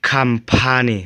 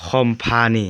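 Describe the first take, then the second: First: "company" said as "kham-pha-nee", with an a; correct pronunciation. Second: "company" said as "khom-pha-nee", with an o; common mispronunciation. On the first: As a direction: say "company" starting "kum", not "kom". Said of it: "com นี่อ่านหัวตัว P เป็น". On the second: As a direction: say "company" with "com" as in "comma". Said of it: "จะพักพบหลายที่อ่านว่า". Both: Shown as a demonstration.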